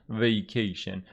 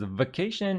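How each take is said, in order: First: It is said in an American accent. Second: It is said in a British accent. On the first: "American kind of goes vacation" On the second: "the British says vacation"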